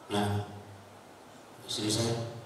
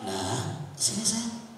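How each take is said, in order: First: It is said harshly and coldly. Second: It is said gently and lovingly.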